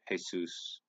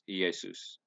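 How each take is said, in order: First: The name is pronounced the Spanish way. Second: The name is pronounced the Greek way. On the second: "His name was Jesus in Greek"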